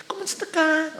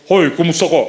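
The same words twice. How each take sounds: First: Much higher and much softer, a thin mock feminine voice; thin girly voice. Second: Manly greeting. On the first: Teacher imitating a man's voice made thin by steroids. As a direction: lightly imitate a thin, girlish greeting. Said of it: "Yan, iba na". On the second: Retold or imitated. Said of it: "malalaking bo".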